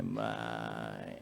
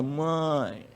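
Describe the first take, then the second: First: Put-on soft, creaky, pleading little-boy voice, much quieter. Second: Said in the usual way. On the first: Son pleading with his mother in a creaky whiny little voice. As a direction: whimper it like a creaking castle door. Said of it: "aquela vozinha arranhadinha de porta de castelo abrindo". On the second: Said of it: "naquela vozinha".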